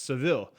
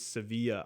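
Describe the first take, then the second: First: The name ends in an 'eel' sound. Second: The name ends in an 'ee-ya' sound. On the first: "I guess in English it's pr- pronounced Seville" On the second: "they pronounce their e's Sevilla"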